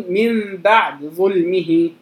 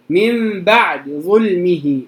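The two takes are said the same way.

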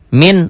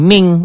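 First: The word ends in a plain n sound. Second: The word ends in a nasal ng sound. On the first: This is the original form of the word. "Asalnya min" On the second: The sound changes before the following letter. "Jadi ming. Jadi ang"

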